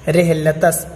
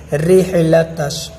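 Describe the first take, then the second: First: "رحلتس" ending in a small s; "رحلتس" with hissed s in place of sh; common mispronunciation. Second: "رحلتش" slowly, ending in a full sh; slow "رحلتش" with a clear sheen; correct sheen. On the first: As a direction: say "رحلتس" as rehla-tas. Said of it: "بہت سارے لوگ رحلتس پڑھتے ہیں". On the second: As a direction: say "رحلتش" drawn out as rihla-tash. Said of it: "اس کو بڑی شین آپ پڑھیں گے". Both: Shown as a demonstration.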